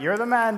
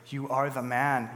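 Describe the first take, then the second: First: It sounds like admiring praise. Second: It sounds like a stern accusation.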